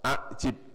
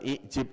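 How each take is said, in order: First: The word starts with an 'a' vowel. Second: The word starts with an 'i' vowel. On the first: The speaker calls it right. "Karena ini berasal dari empat huruf, maka ini a" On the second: The speaker calls it wrong. "Bukan i'jib"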